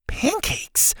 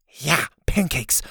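First: Very high, baffled echo of "Pancakes"; squeaked-up disbelief; incredulous. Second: Slower, matter-of-fact "pancakes"; drawn-out "Yeah", then a falling "pancakes"; confirming. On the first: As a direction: repeat "Pancakes" as a disbelieving question. Listener questions the odd detail. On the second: Confirming the odd detail. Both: Acted.

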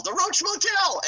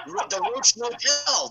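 First: Sings Roach Motel up high; sung, belt it like a jingle. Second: Imitating Roddy. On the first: Retold or imitated. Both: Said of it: "he goes".

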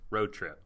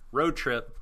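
First: Said in the usual way. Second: Road trip said louder in a Scottish lilt; leftover Scottish accent. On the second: Pretend. Dropping the Scottish accent mid-recap. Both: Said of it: "stop doing the accent".

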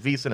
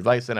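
First: "Wiesen" with a long ee in the first syllable; long EE pronunciation. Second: "Weisen" with an eye sound in the first syllable; long I pronunciation. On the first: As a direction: say "Wiesen" as VEE-sen. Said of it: "I've heard it Wiesen". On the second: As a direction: say "Weisen" as VICE-en. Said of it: "I've heard it Weisen". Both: Shown as a demonstration.

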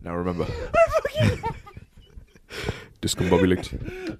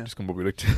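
First: Laughing British mock word; British Batman. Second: Low, soft mock British accent; a quiet posh British aside; hammed-up British whisper of the word. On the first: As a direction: say it like a stuffy British gent. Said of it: "in a British accent". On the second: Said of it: "See? It's perfect".

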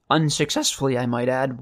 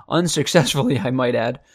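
First: A real crack breaking the voice. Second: Said in the usual way. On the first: Real, not acted. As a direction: voice cracks on the word. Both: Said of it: "Wow, my voice just cracked".

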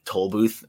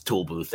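First: "toll booth" with a long oh in toll; intended pronunciation. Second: "tool booth" with oo in both words; Pittsburgh pronunciation. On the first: Shown as a demonstration. What the news anchor aims to say, standard pronunciation. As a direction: say "toll booth" with toll rhyming with roll. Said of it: "she tries to say". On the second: Retold or imitated. Imitating the anchor girlfriend's slip, Pittsburgh pronunciation. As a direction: say "tool booth", toll turned into tool. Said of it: "it's tool booth every time".

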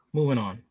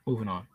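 First: Said in the usual way. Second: Quiet. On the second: Real, not acted. Softer echo of transition.

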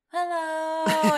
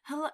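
First: Loud, high, overdone "Hello"; dramatic hello. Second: Said in the usual way. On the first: Retold or imitated. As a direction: call "Hello" across the room. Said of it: "he's like". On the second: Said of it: "he just is like".

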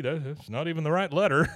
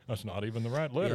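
First: Words through a laugh. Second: Quick flat repeat of that's not even the right letter; fast plain repeat. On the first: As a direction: laugh while saying it. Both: Retold or imitated. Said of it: "just clue into what's going on".

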